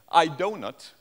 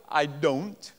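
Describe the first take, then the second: First: "donut" split into two syllables, DOH-nut; foreign-accented "donut" for don't, loud; foreign learner's "donut". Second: "I don't" as one clear syllable with its final t; "don't" kept to a single syllable; foreign learner's "don't". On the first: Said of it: "has a terrible accent". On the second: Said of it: "Now, if they go". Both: Shown as a demonstration.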